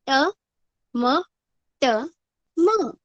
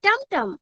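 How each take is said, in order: First: ट, म, ट, म spelled out one letter at a time; teacher spells out the letters. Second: टम टम said as one word, blended and higher; teacher shows the blended word. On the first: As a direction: sound out each letter separately. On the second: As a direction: join the letters into टम टम. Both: Shown as a demonstration. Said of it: "और उच्चारण करते सब वक्त हम कैसे करेंगे?".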